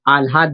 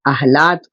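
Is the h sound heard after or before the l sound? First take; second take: after; before. First: The h sound comes after the l sound. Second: The h sound comes before the l sound. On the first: This is how people actually say it. "हम आह्लाद बोलते हैं" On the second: This is how the word is written. "आह्लाद को"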